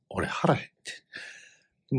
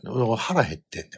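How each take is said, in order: First: A slow hungry whisper; slow whispered complaint. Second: Said in the usual way. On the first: Shown as a demonstration. Telling the listener he was starving, slow whisper. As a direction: whisper it slowly, drawn out.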